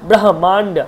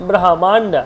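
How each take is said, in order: No difference in how they are said.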